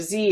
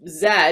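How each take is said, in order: First: The letter is said as zee, American style. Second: The letter is said as zed, non-American style.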